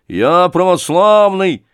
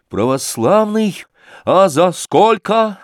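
First: Loud, high, slow "православный"; proud declaration. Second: Sly mockery. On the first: Acted. Thug proudly declares his faith. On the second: Sashka mocks the thug.

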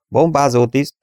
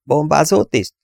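First: Raised, brisk crew roll-call answer; higher-voiced statement of one's post; roll-call report. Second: BOMBÁZÓ TISZT as a high question, rising then falling; raised questioning call; inquiring. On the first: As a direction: announce your station as BOMBÁZÓ TISZT, pitched up. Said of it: "hangzott Wall hangja". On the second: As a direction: ask the crewman to report, pitched up. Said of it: "érdeklődött Dennis". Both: A narrator's reading.

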